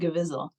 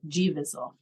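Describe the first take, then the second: First: The G blends into the name as one word. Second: The G is said as a separate letter. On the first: The speaker calls it wrong. "someone actually did think it was pronounced Gevizzle" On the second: The speaker calls it right. "they heard me pronounce it G Vizzle"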